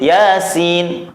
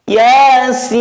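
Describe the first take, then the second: First: Yasin with sin clipped short, not held; wrong short Yasin. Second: Yasin with sin held long and loud, three alif; long drawn Yasin. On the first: Teacher demonstrating the wrong way, Yasin cut short. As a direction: say Yasin quickly without lengthening the sin. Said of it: "Nggak boleh". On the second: Teacher showing the correct way, Yasin drawn long. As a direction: draw out the sin in Yasin for six beats. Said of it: "Maka harus panjang". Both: Shown as a demonstration.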